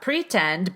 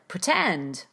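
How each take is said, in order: First: The first syllable has a full, unreduced vowel. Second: The first syllable is rushed with almost no vowel. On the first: The speaker calls it wrong. "So not pretend" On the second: The speaker calls it right. "but pretend"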